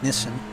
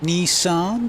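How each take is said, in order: First: The word is said with an Australian pronunciation. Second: The word is said with an American pronunciation.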